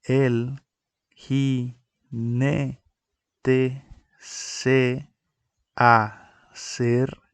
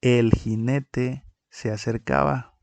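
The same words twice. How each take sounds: First: Slow, each syllable set apart with pauses; counting the syllables of "jinete" and "acercaba" aloud; split into syllables. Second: Read out as a sentence. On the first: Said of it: "que quedarían de la siguiente manera". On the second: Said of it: "Tenemos la siguiente frase". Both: Shown as a demonstration.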